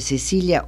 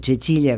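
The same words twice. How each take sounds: First: The name is pronounced in the usual local way. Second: The name is pronounced in the foreign way.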